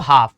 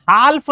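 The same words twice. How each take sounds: First: हाफ with silent l, low and final; long aa straight into f in हाफ; right pronunciation. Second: हाल्फ with the l sounded; wrong pronunciation. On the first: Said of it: "क्या पढ़ते हैं बच्चों". (हाफ, 'ल' चुप रखकर) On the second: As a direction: put an audible l before the f in हाल्फ. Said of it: "हाल्फ नहीं पढ़ते". (हाल्फ में 'ल' बोलकर गलत उच्चारण) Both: Shown as a demonstration.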